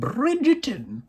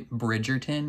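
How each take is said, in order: First: The word is said in a grand, theatrical way. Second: The word is said in a plain, ordinary way. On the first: The speaker calls it right. "You got to be like Bridgerton" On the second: The speaker calls it wrong. "You can't just say Bridgerton"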